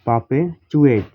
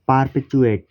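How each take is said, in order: First: The r after the first vowel is silent. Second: The r after the first vowel is pronounced.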